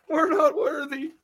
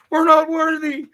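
First: High, slower, breaking into a laugh; laughing mock worship. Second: High, loud hammed-up "not worthy"; mock grovelling worship. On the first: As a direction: let the worship dissolve into laughter. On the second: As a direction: worship the cop in a squeaky shout. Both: Bowing to the cop.

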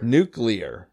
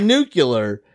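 First: "Nuclear" said NOO-klee-er, lower; standard pronunciation. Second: "nuclear" slowly as NOO-kyuh-ler; imitated mispronunciation. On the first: Shown as a demonstration. Teaching friend the real "Nuclear", NOO-klee-er. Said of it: "we'll spell it for you". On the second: Showing friend his wrong "nuclear", NOO-kyuh-ler. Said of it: "You, you said nuclear".

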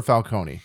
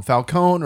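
First: Falcone ending in "coney"; final E sounded. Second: Falcone ending in "cone"; silent final E. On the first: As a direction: say "Falcone" as fal-CONE-ee, three syllables. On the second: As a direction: say "Falcone" as fal-CONE, two syllables. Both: Shown as a demonstration. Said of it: "whether they were gonna call him Falcone or Falcone".

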